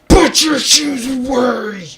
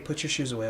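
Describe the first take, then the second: First: It is shouted in an angry outburst. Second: It is said calmly, as a polite request.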